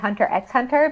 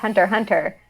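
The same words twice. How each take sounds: First: The X is spoken between the two words. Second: The X is silent between the two words. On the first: The speaker calls it wrong. "always say Hunter x Hunter because like I'm like the X is there" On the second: The speaker calls it right. "it's just Hunter x Hunter"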